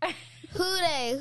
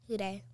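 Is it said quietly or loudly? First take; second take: loudly; quietly. First: It is said loudly and proudly. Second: It is said quietly and reluctantly.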